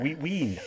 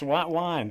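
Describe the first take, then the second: First: Both words have an 'ee' vowel sound. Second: Both words have an 'eye' vowel sound. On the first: The speaker calls it wrong. "but not wheat wean" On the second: The speaker calls it right.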